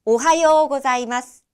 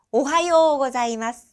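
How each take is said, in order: First: Whispered 오하요 고자이마스 with the pitch shape kept; intonation demo. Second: Voiced 오하요 고자이마스 with a clear pitch contour; intonation demo. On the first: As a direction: breathe the phrase and let them hear its tune. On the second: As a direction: sing the tune of the greeting plainly. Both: Shown as a demonstration. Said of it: "인토네이션이 어떻게 되는지".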